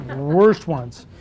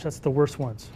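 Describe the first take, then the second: First: Drawn-out, emphatic "worst"; stress on worst. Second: Said in the usual way. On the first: Real, not acted. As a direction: stretch "worst" long and lean on it. Repeats his aside for comic emphasis.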